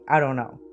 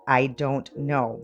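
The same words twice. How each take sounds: First: The words are run together into one reduced chunk. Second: Each word is said clearly and separately. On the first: "So we kind of run things together" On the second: "But we don't say that"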